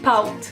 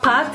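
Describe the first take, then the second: First: The vowel glides toward ou, Québécois style. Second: The vowel is a plain standard French a. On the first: The speaker calls it right. "Le A avec un chapeau devient aou" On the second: The speaker calls it wrong. "C'est pas"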